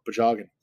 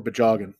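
First: Pajagan said with a P sound; dialect variant. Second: Bajagan said with a B sound; dialect variant. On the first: Naming the word in one dialect, pajagan with P. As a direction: start pajagan with a soft P. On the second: Naming the word in another dialect, bajagan with B. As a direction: start bajagan with a voiced B. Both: Shown as a demonstration. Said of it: "depending on your dialect".

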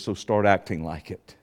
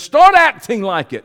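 First: Low, soft, restrained voice; quiet instruction. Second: Raised, loud command; forceful order. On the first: Preacher retelling what Yahweh told him, quiet and low. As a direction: say it low and quietly matter-of-fact. God's words retold, first quiet take. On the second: Preacher retelling Yahweh's rebuke, loud and commanding. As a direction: hit it hard and higher, as an order. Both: Retold or imitated.

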